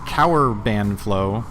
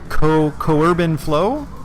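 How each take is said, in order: First: The first syllable rhymes with 'sour'. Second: The first syllable does not rhyme with 'sour'. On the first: "like sour but with a C" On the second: "did I say that right?"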